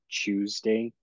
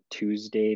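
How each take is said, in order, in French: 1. Il est prononcé avec un accent britannique. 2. Il est prononcé avec un accent américain. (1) "un accent plus anglais que américain" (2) "on disait pas Tuesday"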